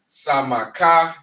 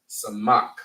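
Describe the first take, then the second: First: The word ends with an extra vowel sound. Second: The word ends on a consonant sound. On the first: The speaker calls it wrong. "You're not pronouncing it as Samaka" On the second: The speaker calls it right. "you're pronouncing it as Samak"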